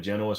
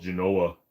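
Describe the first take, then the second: First: "Genoa" stressed on the first syllable; customer's pronunciation of Genoa. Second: "Genoa" stressed on the middle syllable; correcting pronunciation of Genoa. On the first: Streamer ordering a pound at the counter, "Genoa" as JEN-oh-ah. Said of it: "it's called Genoa". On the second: Counter man correcting the customer, "Genoa" as juh-NO-ah. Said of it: "You know, it's called Genoa". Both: Retold or imitated.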